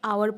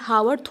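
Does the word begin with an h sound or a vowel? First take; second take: vowel; h sound. First: The word begins with a vowel sound. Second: The word begins with an h sound. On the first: The speaker calls it right. "आवर पढ़ेंगे" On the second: The speaker calls it wrong. "हावर थोड़ी ना पढ़ेंगे"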